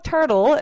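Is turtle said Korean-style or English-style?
English-style. It is said with English-style sounds. The speaker calls it right. "물론 turtle"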